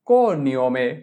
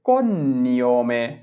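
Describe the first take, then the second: First: The middle n sound is single and light. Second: The middle n sound is doubled and lengthened. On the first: It would be spelled with n-i. "আমি যদি বলতাম কো নিয়মে" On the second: It is spelled with g-n. "যেহেতু বললাম কোন নিয়মে"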